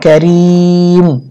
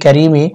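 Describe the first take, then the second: First: The word ends on a bare m sound. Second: The word ends with a short i vowel. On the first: The reader stops at the end of the verse. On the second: The reading continues without stopping.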